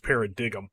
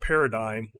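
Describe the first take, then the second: First: The g is pronounced. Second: The g is silent.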